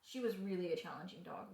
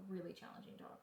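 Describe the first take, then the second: First: Said in the usual way. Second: Soft whispered repeat; whispered aside. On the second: Real, not acted. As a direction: breathe it as an aside. Repeats phrase as quiet aside.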